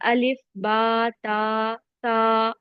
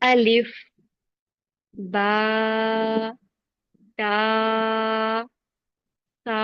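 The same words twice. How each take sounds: First: The letter names run together without pauses. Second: Each letter name is separated by a pause. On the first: The speaker calls it wrong. "Flow खराब हो जाता है, अलिफ बा ता सा ऐसे पढ़ने लगते हैं" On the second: The speaker calls it right. "एक एक हरूफ को अलग अलग पढ़ना है"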